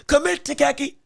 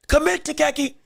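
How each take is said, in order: Both takes have the same delivery.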